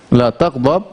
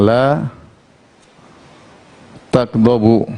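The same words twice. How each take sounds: First: La tagdab, cut short on a bare b: tagdab; tagdab with sukun. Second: Slow la tagdabu, ending clearly on u: tagdabu; tagdabu with final u. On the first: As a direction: drop the final vowel so tagdab ends on sukun. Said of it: "dengan sukun". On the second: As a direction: spell out the marfu ending of tagdabu, slowly. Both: Shown as a demonstration.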